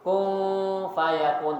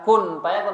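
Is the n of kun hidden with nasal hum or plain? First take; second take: nasal hum; plain. First: The n of kun is hidden with a nasal hum. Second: The n of kun is pronounced plainly, without nasal hum. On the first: The speaker calls it right. "tapi kun fayakun, tetap ih ihfa" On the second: The speaker calls it wrong. "bukan kun fayakun"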